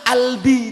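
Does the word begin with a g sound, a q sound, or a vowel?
vowel. The word begins directly with a vowel. The first sound is dropped. "lek nang ngarep ilang"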